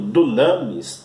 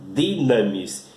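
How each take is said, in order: First: The first vowel sounds like 'oo'. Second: The first vowel sounds like 'ee'. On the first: The speaker calls it wrong. "apesar também de estar escrito dunamis" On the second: The speaker calls it right. "a forma correta de pronunciar é dinamis"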